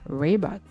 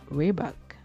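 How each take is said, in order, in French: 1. Il est prononcé avec un r américain. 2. Il est prononcé avec un r américain.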